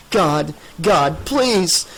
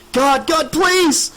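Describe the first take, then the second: First: Wailing. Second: High, loud desperate pleading; terrified wail. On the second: Tricia pleading in terror as the monster nears, wailing loudly. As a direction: beg in pure panic. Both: A narrator's reading. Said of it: "Tricia wailed".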